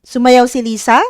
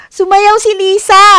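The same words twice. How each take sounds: First: "Sumayaw si Lisa?" asked with the pitch rising at the end; asking tune. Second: "Sumayaw si Lisa!" shouted much higher and louder; exclamation. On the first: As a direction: turn "Sumayaw si Lisa" into a question. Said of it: "may nagtatanong". (patanong na tono sa "Sumayaw si Lisa?") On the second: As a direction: burst out "Sumayaw si Lisa!" in excitement. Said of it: "parang excitement". (padamdam, masiglang sigaw na "Sumayaw si Lisa!") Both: Shown as a demonstration.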